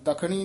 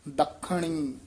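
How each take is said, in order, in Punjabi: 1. ਵਿਚਲਾ ਵਿਅੰਜਨ ਢਿੱਲਾ ਬੋਲਿਆ ਜਾਂਦਾ ਹੈ, ਰੋਕਿਆ ਨਹੀਂ ਜਾਂਦਾ। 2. ਵਿਚਲਾ ਵਿਅੰਜਨ ਕੱਸ ਕੇ ਬੋਲਿਆ ਜਾਂਦਾ ਹੈ, ਵੱਧ ਸਮੇਂ ਲਈ ਰੋਕਿਆ ਜਾਂਦਾ ਹੈ। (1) "ਦੱਖਣੀ ਨਹੀਂ ਕਹਿਣਾ" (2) "ਕੱਸ ਕੇ ਉਚਾਰਨ ਕਰਨਾ"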